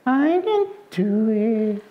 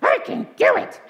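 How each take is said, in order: First: Slow, high, half-hearted puppet voice; discouraged piglet puppet. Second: Very high squeal of belief; triumphant piglet puppet. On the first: Puppet repeating after the puppeteer, discouraged high drawl. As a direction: drag it out high, not meaning it. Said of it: "she was always discouraged and always afraid". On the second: Coached puppet finally believing, triumphant high squeal. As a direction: squeak it out like you finally mean it. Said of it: "she would coach her until finally Pinky". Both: Acted.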